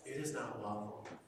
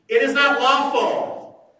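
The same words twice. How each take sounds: First: It is said in a plain, neutral tone. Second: It is said in a haughty, condescending tone. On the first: A simple statement of the rule. "They didn't say like" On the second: The religious leaders look down on the man. "You know they said it that way, right?"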